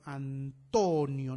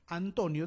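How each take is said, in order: First: Antonio slowly split, with a loud long TO; stress on TO. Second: Said in the usual way. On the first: Shown as a demonstration. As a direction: draw out Antonio as an-TO-nio, punching TO. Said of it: "En to". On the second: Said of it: "dónde está el énfasis en Antonio".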